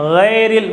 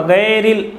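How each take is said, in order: First: गैरिल with a full, heavy ghain. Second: गैरिल with a light, thin ghain. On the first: Teacher shows correct heavy ghain. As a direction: round the ghain of गैरिल fully. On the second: Teacher demonstrates the mistake, thin ghain. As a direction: read गैरिल thin, the wrong way. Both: Shown as a demonstration. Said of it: "अब मैं गैरिल नहीं पढ़ूंगा".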